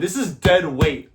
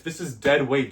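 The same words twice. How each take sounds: First: Slow "this is dead weight" with the push on "is"; stress on IS. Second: "This is dead weight" with "dead" punched and falling; stress on DEAD. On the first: Coach warning viewers the sandbag is dead weight, stressing is. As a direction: lean on "is" in "this is dead weight", slowly. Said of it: "And then keep in mind". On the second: Coach contrasting sandbag with barbell, stressing dead. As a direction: hit "dead" in "This is dead weight", then drop. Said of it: "This is not like a regular bar". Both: Shown as a demonstration.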